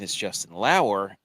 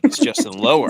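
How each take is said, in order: First: The surname's first vowel sounds like 'ow'. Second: The surname's first vowel sounds like 'oh'. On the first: The speaker calls it right. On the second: The speaker calls it wrong.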